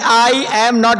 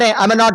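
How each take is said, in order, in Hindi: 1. शब्द अलग-अलग, एक-एक करके बोले जाते हैं। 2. शब्द एक साथ जुड़कर एक लय में बोले जाते हैं। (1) "ये नहीं आई एम नॉट" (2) "आई एम का जोड़ दो, केवल दोनों को जोड़ दो"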